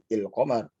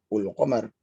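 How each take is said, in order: First: The word begins with the vowel i. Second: The word begins with the vowel u. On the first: "ini i"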